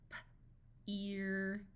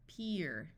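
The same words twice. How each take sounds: First: Puffed P, pause, drawn-out "ear"; sounded out. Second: Said in the usual way. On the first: Shown as a demonstration. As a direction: break "P-ear" into its sounds slowly. Phonics teacher sounds out, then blends.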